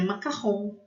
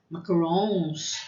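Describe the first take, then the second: First: It is said with a French pronunciation. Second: It is said with an English pronunciation. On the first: The speaker calls it right. "mas é macarrão" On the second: The speaker calls it wrong. "com uma pronúncia em inglês"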